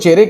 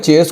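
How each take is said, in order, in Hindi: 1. यह शब्द दो अक्षरों में बोला जाता है। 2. यह शब्द एक अक्षर में बोला जाता है।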